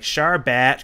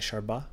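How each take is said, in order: First: The name ends with a clear T sound. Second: The name ends on a vowel without T. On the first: "I think you pronounce the T" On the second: "I like saying Sharba"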